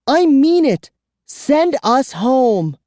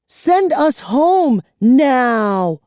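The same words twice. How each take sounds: First: High, loud, slow command; furious boy. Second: High, loud, slow order; commanding girl. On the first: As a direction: demand it fiercely. Boy demands. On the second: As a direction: order him fiercely. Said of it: "Kara ordered him". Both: A narrator's reading.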